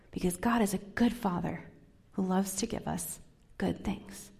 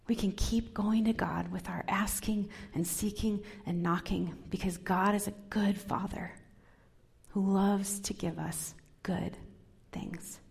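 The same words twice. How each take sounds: First: Said in the usual way. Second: Soft whisper. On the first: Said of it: "repeated next in a whisper". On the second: Shown as a demonstration. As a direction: lean in and whisper the promise. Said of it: "same line said plainly just before".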